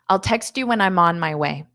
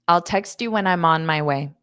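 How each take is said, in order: No difference in how they are said.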